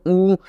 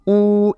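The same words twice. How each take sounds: First: ऊ said short at normal length; a quick short ऊ vowel. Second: ऊ stretched out long and slow; a slow lengthened ऊ vowel; long drawn ऊ. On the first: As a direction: keep the ऊ brief. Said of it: "थोड़ा normal आवाज़ में पढ़ते हैं". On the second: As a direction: draw out the ऊ. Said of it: "इस तरह से आपको खींच कर पढ़ना". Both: Shown as a demonstration.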